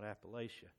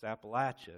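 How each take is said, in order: First: The third syllable sounds like 'lay'. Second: The third syllable sounds like 'latch'. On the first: The speaker calls it wrong. "not Appalachia. If you say it incorrectly" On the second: The speaker calls it right. "It's Appalachia, ... throw an apple at you"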